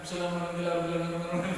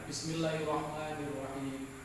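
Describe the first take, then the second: First: It is recited quickly and rushed. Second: It is recited slowly and carefully.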